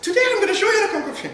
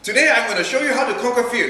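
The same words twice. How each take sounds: First: It is said imitating the young speaker's voice. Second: It is said in his normal voice.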